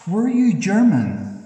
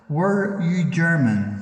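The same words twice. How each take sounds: First: Loud, much higher sudden question; loud high burst of a question. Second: Slower, spaced-out, loud repeat; slow, deliberate, loud repeat. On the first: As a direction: fire the question straight at the spirit. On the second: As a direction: spell the question out slowly for the spirit. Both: Real, not acted. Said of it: "Again, sir, could you please answer".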